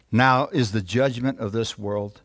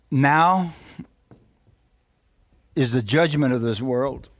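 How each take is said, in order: First: Said in the usual way. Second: Dramatic pause after "now"; emphatic repeat. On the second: Real, not acted. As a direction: isolate "now", hold the silence, then finish.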